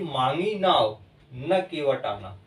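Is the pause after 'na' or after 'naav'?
after naav. The pause comes right after 'naav'. The boat was asked for, but the boatman did not come. "जब मैंने नाव मांगी तो केवट नहीं आया"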